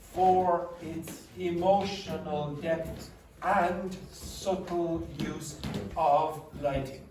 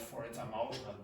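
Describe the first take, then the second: First: Every word is pronounced carefully and fully. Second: It is spoken in a casual Irish accent. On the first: "the way the dictionary tells you to pronounce every word" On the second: "the juvenile delinquent teenagers from Ireland, they might say something like"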